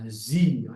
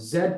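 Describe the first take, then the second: First: The letter is said the American way, zee. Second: The letter is said the British way, zed.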